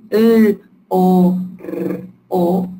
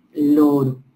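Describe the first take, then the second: First: "l, o, r, o" as four separate held sounds. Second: Said in the usual way. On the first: Shown as a demonstration. Teacher giving sounds to blend into a word, sound by sound. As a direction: hold each of "l", "o", "r", "o" alone, rolling the r. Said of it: "si juntamos los sonidos". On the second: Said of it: "¿Qué palabra se forma?".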